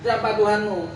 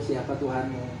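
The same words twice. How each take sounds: First: It is snapped out in a harsh, threatening tone. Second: It is asked softly in a slow, gentle tone. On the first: The one asked is being intimidated. "Digertak seperti itu" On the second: The one asked is being treated kindly.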